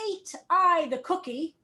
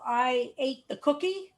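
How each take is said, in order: First: "Ate I the cookie" with the word "Ate" put first for weight, said as a statement; poetic inversion. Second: Said in the usual way. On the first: Shown as a demonstration. Teacher showing inverted English word order, poetic emphasis. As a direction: lean on "Ate" to make it sound poetic. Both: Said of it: "all of a sudden it sounds a little poetic".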